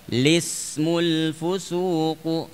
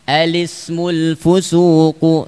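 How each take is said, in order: First: The phrase begins directly with an 'l' sound. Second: The phrase begins with an 'a' vowel. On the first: "boleh juga cara kedua" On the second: "Satu alismu"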